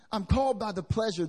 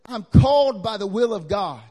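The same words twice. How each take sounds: First: Said in the usual way. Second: Loud, ringing declaration; Paul's claim thundered out; booming proclamation. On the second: Acted. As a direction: proclaim it to the whole room. Preacher voicing Paul's claim.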